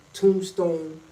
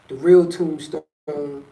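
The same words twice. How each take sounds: First: Said in the usual way. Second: Real stretched long and loud; the word real held and leaned on; stress on real. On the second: Real, not acted. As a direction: drag out real in the real Tombstone.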